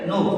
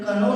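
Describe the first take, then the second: First: No k sound is heard at the start. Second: A k sound is pronounced at the start. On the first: The speaker calls it right. "क्या बोलेंगे" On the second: The speaker calls it wrong. "कनो ना बोल के"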